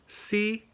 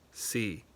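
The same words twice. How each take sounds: First: The pitch stays high and level. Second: The pitch stays level in the middle. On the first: "high flat" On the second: "mid flat"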